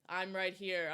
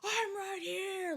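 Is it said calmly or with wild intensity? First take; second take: calmly; wild intensity. First: It is said calmly, grounded, even while shouting. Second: It is said with wild, over-the-top intensity.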